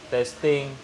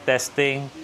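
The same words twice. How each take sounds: Both takes have the same delivery.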